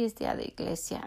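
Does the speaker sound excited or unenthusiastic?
unenthusiastic. It is said flatly, without enthusiasm. Going to church feels like a chore. The speaker calls it wrong. "así, no algo como súper emocionante"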